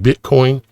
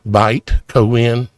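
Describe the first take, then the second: First: The first syllable sounds like 'bit'. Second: The first syllable sounds like 'bite'. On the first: The speaker calls it wrong. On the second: The speaker calls it right.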